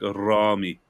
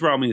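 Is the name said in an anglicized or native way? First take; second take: native; anglicized. First: The name is said in its native pronunciation. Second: The name is said in a plain anglicized way. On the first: This is the proper form of the name. "how do I properly say? It?" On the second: A casual, easy version is acceptable. "Just Rami is fine"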